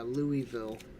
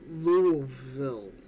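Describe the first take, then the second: First: Each syllable of the name is said clearly. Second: The syllables are squashed together into fewer sounds.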